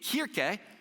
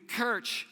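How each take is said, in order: First: The word ends with a vowel sound. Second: The word ends with a consonant sound. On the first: This is the original German pronunciation. "you can kind of hear how it's supposed to be Kirche" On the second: This is how English speakers came to pronounce it. "and it went to Kirch"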